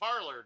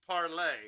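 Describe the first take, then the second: First: It is said the English way, like parlor. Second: It is said the French way, like parlay.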